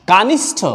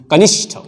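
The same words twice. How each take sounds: First: "कानिष्ठ" with long first aa, pitched up; mispronunciation demo. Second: "कनिष्ठ" with short first a and clear sh; correct pronunciation. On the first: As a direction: stretch the first vowel of "कानिष्ठ" to kaa. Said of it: "ये भी गलत है". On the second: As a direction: keep the ka of "कनिष्ठ" short, then sh-tha. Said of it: "ये सही है". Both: Shown as a demonstration.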